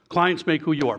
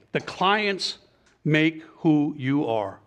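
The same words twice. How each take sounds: First: Said in the usual way. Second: Slow, drawn-out key point; deliberate emphasis. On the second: Real, not acted. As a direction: stretch out the words for weight. Drives home the main point.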